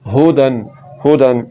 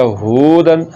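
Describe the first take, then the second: First: हुदन with a short हु; short vowel. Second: हुदन with हु stretched to a long hoo; wrongly lengthened vowel. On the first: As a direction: keep हु brief in हुदन. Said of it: "इसको पढ़ना हुदन". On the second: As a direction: drag out the u in हुदन. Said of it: "पेश को लंबा करने से वाव". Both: Shown as a demonstration.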